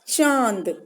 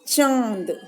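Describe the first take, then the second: Both takes have the same delivery.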